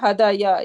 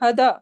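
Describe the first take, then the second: First: The word ends with an added 'ya' syllable. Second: The word ends without any added 'ya' syllable. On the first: This is the underlying form with its final vowel shown. The speaker calls it wrong. "It should be hadaya. ... But it's not hadaya. We do not pronounce like that" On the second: This is the form actually used in speech. The speaker calls it right. "We just say hada"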